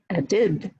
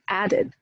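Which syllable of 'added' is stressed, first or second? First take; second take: second; first. First: The stress is on the second syllable. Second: The stress is on the first syllable. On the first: The speaker calls it wrong. "We don't stress the suffixes, so it's not be added" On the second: The speaker calls it right. "First syllable, right?"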